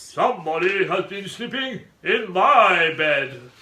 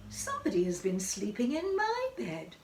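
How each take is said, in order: First: Loud, slow growling bear; great big growly voice. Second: Higher, lighter mother bear voice; quiet, gentle Mother Bear. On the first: Father Bear finding his bed slept in, great growl. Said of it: "in his great big growly voice". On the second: Mother Bear finding her bed slept in, gentle voice. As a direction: lilt it gently, higher and without growling. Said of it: "she said in her quiet". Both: A narrator's reading.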